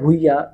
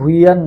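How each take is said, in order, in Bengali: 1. নামটি একটি স্বরধ্বনি দিয়ে শেষ হয়। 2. নামটি 'n' ধ্বনি দিয়ে শেষ হয়। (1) "ভুইয়া উচ্চারণ হয় আর কি" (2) "ভুইয়ান না"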